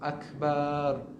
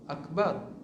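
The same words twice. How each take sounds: First: The vowel after the b is drawn out long. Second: The vowel after the b is kept short. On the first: The word comes to mean many, not one great God. The speaker calls it wrong. "kalau menambahkan huruf alif ... antara ba dengan ra itu, dia akan menjadi kepada makna banyak" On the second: It means God is the greatest and one. The speaker calls it right. "Sedangkan Allah itu satu"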